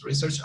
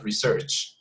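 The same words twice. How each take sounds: First: "research" stressed on the first syllable, RE-search; weight on the RE of "research"; noun stress on research. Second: "research" stressed on the second syllable, re-SEARCH; weight on the SEARCH of "research"; verb stress on research. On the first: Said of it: "So research is a noun". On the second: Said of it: "to research is a verb". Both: Shown as a demonstration.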